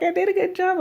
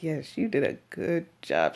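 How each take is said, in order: First: High, little put-on voice; imitated proud helper. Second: Mock-reassuring, back down in pitch; humouring reply. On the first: Helper to patient after giving the shot, proud mimicry. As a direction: pipe it up high, mimicking her self-praise. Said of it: "And she's like". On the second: Patient to eager helper after painful shot, humouring praise. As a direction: humour her with put-on praise. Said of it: "I'm like".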